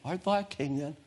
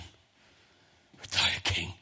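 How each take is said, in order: First: It is said in a plain, neutral reading tone. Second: It is said in a mocking, scornful tone. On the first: A simple question read from the text. The speaker calls it wrong. "We can read it" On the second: Pilate mocks the idea that he is a king. The speaker calls it right. "He looks at him with disdain"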